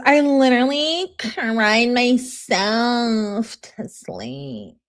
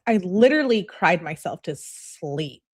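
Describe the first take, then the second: First: Slow, drawn-out mock wail, dropping away at the end; mock melodrama. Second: Said in the usual way. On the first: Mocking rereading of dramatic text.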